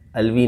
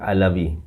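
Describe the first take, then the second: First: The name is said with two syllables. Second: The name is said with three syllables. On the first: The speaker calls it wrong. "अलवी नहीं" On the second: The speaker calls it right. "अगर अरबी में pronounce किया जाए"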